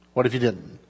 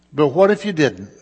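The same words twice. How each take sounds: First: Low, much softer rhetorical question; hushed repeat. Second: Said in the usual way. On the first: Real, not acted. Preacher repeats the question to the congregation, hushed and low. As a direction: drop right down and let the question sink in.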